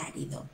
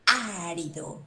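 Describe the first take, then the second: First: Árido, first A stressed, said softly. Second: Árido with the weight on the first A; stress on the A. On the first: Teacher repeating the word for the class, soft stress on A. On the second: Teacher answering a student's question, stress on the first A. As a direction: lean on the opening A of Árido. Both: Shown as a demonstration. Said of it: "acento en la A".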